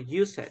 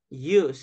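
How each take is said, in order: First: The ending is sounded as an extra syllable. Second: The ending is a single final d sound. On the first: The speaker calls it wrong. "we don't say ... use it" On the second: The speaker calls it right. "So loved, used"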